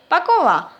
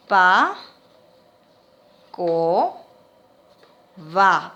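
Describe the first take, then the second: First: Said in the usual way. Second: "Pa, co, va" low, with long pauses between; syllable-by-syllable dictation. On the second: Shown as a demonstration. Teacher filling in word squares, "Pa, co, va" syllable by syllable. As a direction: dictate "Pa, co, va" one syllable at a time. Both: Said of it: "una sola letra por cuadro".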